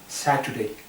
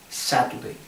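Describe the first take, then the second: First: The s at the start is soft and light. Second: The s at the start is hard and strong. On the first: The speaker calls it right. "de una manera un poco más suave" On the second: The speaker calls it wrong.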